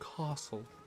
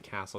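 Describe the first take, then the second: First: The A is a broad, British-sounding vowel. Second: The A is a flat, hard American vowel. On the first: This mimics a put-on old-fashioned British accent. "she says castle ... faux British accent, that hard A sound ... it's non-existent" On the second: This is the ordinary everyday pronunciation. "she also doesn't say castle"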